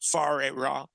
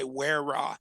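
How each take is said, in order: First: The first word begins with an F sound. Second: The first word begins with a W sound. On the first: The speaker calls it right. "the W H is pronounced like an F, like as in food" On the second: The speaker calls it wrong. "A lot of people say Where Ra"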